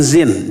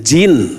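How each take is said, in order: First: The word begins with a z sound. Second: The word begins with a j sound. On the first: The speaker calls it wrong. "bukan zin" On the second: The speaker calls it right. "jin dengan jim, bukan dengan z"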